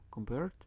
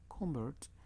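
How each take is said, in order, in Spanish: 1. La sílaba tónica es la segunda. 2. La sílaba tónica es la primera. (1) "Convert es un verbo" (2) "si yo cambio la entonación y agrego la primera sílaba"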